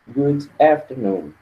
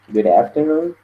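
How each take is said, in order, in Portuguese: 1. O d é pronunciado separadamente antes de "afternoon". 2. O d se liga a "afternoon", soando como um r. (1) "está sendo apenas é um pouco mais formal" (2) "você pode juntar tudo"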